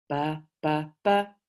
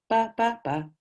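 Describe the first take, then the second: First: The syllables are said slowly. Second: The syllables are said quickly.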